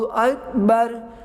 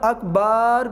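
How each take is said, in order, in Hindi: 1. दूसरा स्वर छोटा रखा जाता है। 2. दूसरा स्वर लंबा खींचा जाता है। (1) "बल्कि अल्लाहु अकबर" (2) "अकबार भी नहीं करना, ये दोनों चीज़ें गलत हैं"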